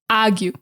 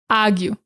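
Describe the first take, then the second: First: Said in a Boston accent, R replaced by ah. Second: Said in a Boston accent, R replaced by ah.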